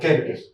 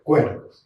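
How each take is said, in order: First: It starts with a plain k sound. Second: It starts with a kw sound. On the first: The speaker calls it wrong. "Uno lo leería en castellano como Quercus" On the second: The speaker calls it right. "se pronuncia Quercus"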